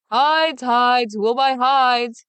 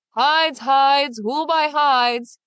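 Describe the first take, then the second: First: Loud, high hawker's shout, drawn out slowly; Big Claus keeps crying his wares; shouting street cry. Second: Loud, higher hawker's call, stretched slow; Big Claus cries his hides through town; bawling street cry. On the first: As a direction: keep hollering to the whole street. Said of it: "he kept on shouting". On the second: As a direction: bawl it like a market seller. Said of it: "he bawled up and down the streets". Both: Acted.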